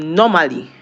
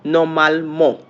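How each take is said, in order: First: "normally" said the English way, ending in -ly; English pronunciation. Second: "normalement" said the French way, ending in "mo"; French pronunciation. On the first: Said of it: "normally in English". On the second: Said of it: "How is it pronounced in French?". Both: Shown as a demonstration.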